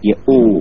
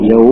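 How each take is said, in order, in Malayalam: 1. ദീർഘമായ u-യ്ക്ക് മുമ്പ് വ്യക്തമായ glottal stop ഉണ്ട്. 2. ഇത് yaw പോലെ കേൾക്കുന്നു, glottal stop ഇല്ല. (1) "അവിടെ അതിന് ശുദ്ധത്ത് വേണ്ടത് യഊ" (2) "ആ ശുദ്ധത്തില്ലാത്ത ഉച്ചാരണം യൗ"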